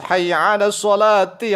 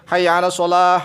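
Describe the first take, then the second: First: The last word ends with the syllable 'ti'. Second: The last word ends in 'ah', without 'ti'. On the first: The speaker calls it right. "Tapi harus hayya 'alas sholati" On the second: The speaker calls it wrong. "Jangan begini"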